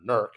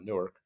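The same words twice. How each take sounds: First: The name is said the local, squeezed-together way. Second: The name is said the ordinary, standard way.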